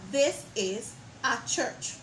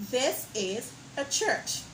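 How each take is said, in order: First: This is a church with full ay, slowly; wrong strong a. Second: This is a church with weak a, slowly; weak a, correct. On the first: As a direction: stress a as ay. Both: Shown as a demonstration. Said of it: "and not".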